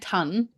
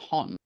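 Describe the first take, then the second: First: The vowel matches the one in 'a ton of'. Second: The vowel matches the one in 'bon ton'. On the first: This is how the other person says it. "You say it like ton, like a ton of something" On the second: This is how the speaker says it. "I say ton because it's the bon ton"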